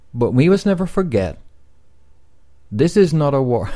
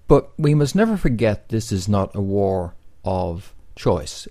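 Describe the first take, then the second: First: There is a clear pause after forget. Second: It runs on with no pause after forget.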